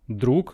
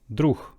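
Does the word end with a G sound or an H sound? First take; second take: G; H. First: The word ends with a hard G sound. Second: The word ends with a breathy H sound.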